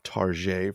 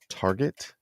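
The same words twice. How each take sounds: First: The name is said in a fancy, formal-sounding way. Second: The name is said in a plain everyday way.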